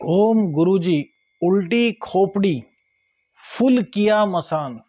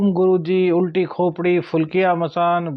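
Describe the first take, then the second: First: The words are recited at a slow pace. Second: The words are recited at a quick pace.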